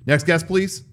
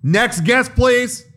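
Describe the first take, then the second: First: Clipped snippy cashier. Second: Higher, impatient cashier call; clipped snippy cashier. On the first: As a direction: mutter it like a tired cashier. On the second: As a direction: sing it out like a fed-up cashier. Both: Retold or imitated. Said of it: "Hey, they're calling you".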